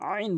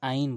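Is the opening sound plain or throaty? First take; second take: throaty; plain. First: It begins with a mid-throat squeeze. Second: It begins with a plain vowel. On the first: The speaker calls it right. "আইন বলতে হবে" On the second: The speaker calls it wrong. "আইন বলা যাবে না"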